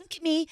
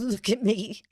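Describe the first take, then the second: First: High-pitched mock showing-off; imitated premiere actress. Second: Imitated tearful actress. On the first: Imitating the green actress walking in, high mock delight. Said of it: "she's all green. She's like". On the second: Imitating the actress after she cried, mild mock tearfulness. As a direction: lightly imitate her after the tears. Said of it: "Oh, like, she cried".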